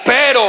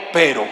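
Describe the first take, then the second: First: "Pero" louder, with energy; punchy, full-voiced "Pero"; said with gusto. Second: Said in the usual way. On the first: Shown as a demonstration. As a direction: put real force into "Pero". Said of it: "Pero con ganas". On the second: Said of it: "Diga conmigo".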